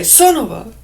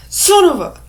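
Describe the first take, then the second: First: Forceful but nearer normal pitch; louder, milder cut-off oath; toned-down demo curse. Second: High, loud cut-off curse; shouted mock fury; acted angry outburst. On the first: Shown as a demonstration. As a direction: punch the unfinished curse without shrieking. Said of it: "Now, if I just say". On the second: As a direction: explode with anger, stopping short of the swear. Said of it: "I'm using anger".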